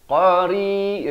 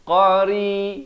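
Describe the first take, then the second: First: The r sound is light and thin. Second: The r sound is light and thin.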